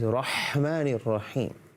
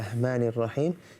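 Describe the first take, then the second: First: The h sound is made deep in the throat. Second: The h sound is plain, not from the throat. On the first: The speaker calls it right. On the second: The speaker calls it wrong. "we don't say"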